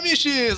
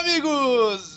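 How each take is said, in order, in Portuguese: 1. A palavra termina com som de 'ches'. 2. A palavra termina com som de 'gos'.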